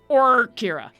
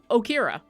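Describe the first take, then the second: First: The name is said with an audible R sound. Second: The name is said without an R sound. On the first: The speaker calls it right. "just like get that R in there" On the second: The speaker calls it wrong. "a lot of people were just saying Okira"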